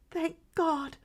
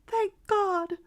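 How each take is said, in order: First: High, relieved gasp of joy; first thanks, breaking with joy; tearful relief, higher; glad tearful cry. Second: Very high and loud burst of joy; second thanks, overflowing with tears; joyful cry rising to its peak; louder glad tearful cry. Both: A narrator's reading. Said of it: "cried the mother with a rush of glad tears".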